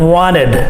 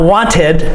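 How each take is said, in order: First: The middle consonant is a soft D sound. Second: The middle consonant is a clear T sound. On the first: The speaker calls it right. "we usually give it a D sound" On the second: The speaker calls it wrong. "Not wanted"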